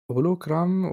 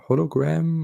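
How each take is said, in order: First: The name is pronounced the Spanish way. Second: The name is pronounced the English way.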